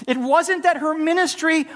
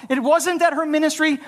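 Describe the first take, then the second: No difference in how they are said.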